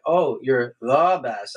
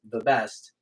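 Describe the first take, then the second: First: "the best" said slowly and evenly, no special stress; 慢慢说"the best"，重音平平; wrong way. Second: "the best" with weight on "best", crisp; his way. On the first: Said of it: "No, no, no, you're saying it wrong". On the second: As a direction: say "the best" the way Mark says it. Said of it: "as long as you don't say it like me". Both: Shown as a demonstration.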